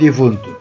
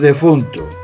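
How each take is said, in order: First: The first vowel is an i sound. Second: The first vowel is an e sound. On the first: The speaker calls it wrong. "non difunto" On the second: The speaker calls it right. "Temos defunto"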